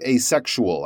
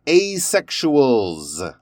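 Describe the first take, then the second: First: Asexual with the final S left off; dropped plural S. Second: Asexuals drawn out slowly with an audible final S; plural S pronounced. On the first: Retold or imitated. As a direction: end asexual on the L, no S sound. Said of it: "didn't really hear the S on the end". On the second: Shown as a demonstration. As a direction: let the S on the end of Asexuals ring clearly. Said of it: "put those S's on the end".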